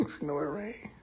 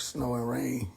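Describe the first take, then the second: First: Whispered through a laugh; mock it in a breathy whisper; amused whisper. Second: Said in the usual way. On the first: Real, not acted.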